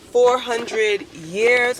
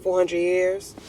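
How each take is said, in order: First: FOUR HUNDRED YEARS stretched out slow and higher; drawn-out emphasis. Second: Said in the usual way. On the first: Real, not acted. Driving home the answer on slavery, drawn-out emphasis on FOUR HUNDRED YEARS. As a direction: spell out "four hundred years" slowly, incredulous.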